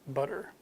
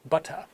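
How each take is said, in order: First: American accent with a quick flapped t. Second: British accent with a clear t, no r. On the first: "a very short, fast D" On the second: "In British English"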